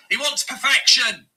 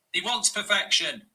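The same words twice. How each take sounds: First: Louder, punching the word wants; exasperated loud jab at the manager; loud emphatic. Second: Said in the usual way. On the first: Real, not acted. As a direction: hammer home he wants perfection. Fan mocking demanding manager.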